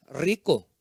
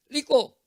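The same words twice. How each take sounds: First: "rico" low, with a rolled R; correct repetition. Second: "rico" said "liko"; father modelling "rico" with an L; father's mispronunciation. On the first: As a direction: repeat "rico" properly, R trilled. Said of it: "Hijo, escuchando, haciendo". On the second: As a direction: swap the R in "rico" for L. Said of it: "Pero papá dice". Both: Acted.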